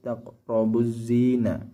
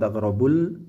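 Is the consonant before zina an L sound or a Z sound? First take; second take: Z sound; L sound. First: The L merges into a doubled Z sound. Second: The article is said with a clear L sound. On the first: The speaker calls it right. "tapi taqrabuz zina" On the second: The speaker calls it wrong. "bukan taqrabul"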